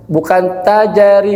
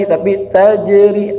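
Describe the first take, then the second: First: "tajari" with a full extra a after j; wrong tajari. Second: "tajri" with a short slanted bounce on the jim; correct tajri. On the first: Teacher showing students the wrong qalqalah, slowed. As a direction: bounce the jim into a clear "ja-ri". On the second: Teacher showing students the right qalqalah, slow. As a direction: tilt the jim slightly, no full vowel. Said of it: "agak miring sedikit". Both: Shown as a demonstration.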